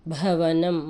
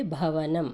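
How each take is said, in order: First: భవనం with a hard, breathy భ; aspirated demo. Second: Said in the usual way. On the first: Shown as a demonstration. Teacher telling kids to read భ firmly. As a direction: push air on the భ of భవనం. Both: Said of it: "కొంచెం గట్టిగా చదవాలి".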